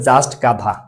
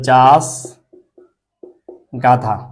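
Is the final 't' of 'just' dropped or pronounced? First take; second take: pronounced; dropped. First: The word 'just' ends with a clear t sound. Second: The word 'just' ends without any t sound.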